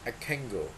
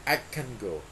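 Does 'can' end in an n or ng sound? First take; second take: ng; ng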